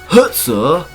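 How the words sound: It is said in a put-on German accent. "I gotta give it like a nice German accent"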